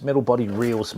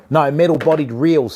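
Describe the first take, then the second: First: Said in the usual way. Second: "metal" hit loud and falling to correct; stress on metal. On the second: Real, not acted. Correcting a viewer who heard rods, stress on "metal". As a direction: lean on "metal", not rods. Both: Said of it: "sorry, not rods".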